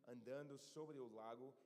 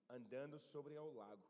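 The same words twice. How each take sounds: The two takes are said the same way.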